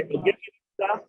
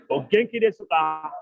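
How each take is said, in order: First: High rising question. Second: Said in the usual way. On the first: Shown as a demonstration. Teacher showing class a polite question, high and light. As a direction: pitch the whole O genki desu ka way up, lightly. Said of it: "You say". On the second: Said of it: "you say".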